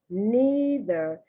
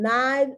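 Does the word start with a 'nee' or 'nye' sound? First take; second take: nee; nye. First: The first vowel is a long 'ee' sound. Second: The first vowel is a long 'eye' sound. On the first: "we say neither" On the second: "the Brits say"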